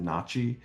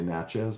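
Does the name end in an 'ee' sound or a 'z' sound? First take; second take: ee sound; z sound. First: The name ends with an ee sound. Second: The name ends with a z sound. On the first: This is the people's own pronunciation. "but they pronounce it Nachi" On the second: This is the common modern American pronunciation. "modern Americans often say Natchez"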